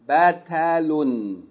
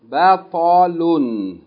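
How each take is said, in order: First: The t sound is light and plain. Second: The t sound is heavy and emphatic. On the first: "With ta will be pronounced batalun" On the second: "with pa is pronounced batalun"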